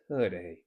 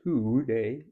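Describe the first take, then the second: First: The first vowel is reduced to a schwa. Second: The first vowel is a full, clear vowel. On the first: The speaker calls it right. "it's today. So t, today" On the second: The speaker calls it wrong. "It's not today"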